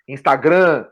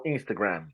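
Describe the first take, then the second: First: Instagram with a nasal final "grã", no closing m; Brazilianized pronunciation. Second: Said in the usual way. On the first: Shown as a demonstration. Podcast guest shows how Brazilians reshape the word, Brazilianized Instagram. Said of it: "a brasileirar as palavras". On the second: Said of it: "não Instagram".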